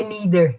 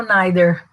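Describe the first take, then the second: First: "neither" said as "NEE-ther"; British neither. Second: "neither" said as "NYE-ther"; American neither. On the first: Teacher showing how it is said here, "neither" as "NEE-ther". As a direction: say "neither" with a long "ee" vowel, as this teacher labels British. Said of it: "porque aqui é neither". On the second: Teacher comparing accents for students, "neither" as "NYE-ther". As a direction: say "neither" with an "eye" vowel, as this teacher labels American. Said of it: "o americano é o neither". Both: Shown as a demonstration.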